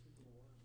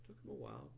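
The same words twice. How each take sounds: First: Barely audible under the breath; muttered aside. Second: Said in the usual way. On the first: Real, not acted. Teacher muttering a wry aside before repeating it. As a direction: mumble it to yourself.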